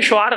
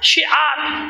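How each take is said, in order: First: The first vowel is pronounced as 'u'. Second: The first vowel is pronounced as 'i'. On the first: The speaker calls it wrong. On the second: The speaker calls it right.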